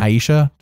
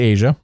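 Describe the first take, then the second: First: The name sounds like 'eye-EE-sha'. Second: The name sounds like 'AY-zha'. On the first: The speaker calls it wrong. "before I was saying Aisha" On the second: The speaker calls it right. "it's actually Asia"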